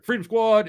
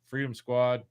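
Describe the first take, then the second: First: It is said in a lively, energetic way. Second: It is said in a flat, monotone way.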